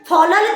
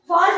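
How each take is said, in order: First: The L sound is said twice, drawn out. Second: The L sound is said only once. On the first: The speaker calls it wrong. "क्यों नहीं पढ़ रहे हैं? दो एल है तो" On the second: The speaker calls it right. "लेकिन फॉल पढ़ते हैं"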